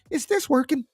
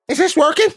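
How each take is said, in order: First: It is said in a put-on imitated voice. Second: It is said in the speaker's normal voice. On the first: The speaker calls it right. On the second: The speaker calls it wrong.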